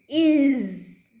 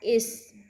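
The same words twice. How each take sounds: First: The word ends with a voiced z sound. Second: The word ends with a voiceless s sound. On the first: The speaker calls it right. "voice pronoun Z" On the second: The speaker calls it wrong. "it's not is"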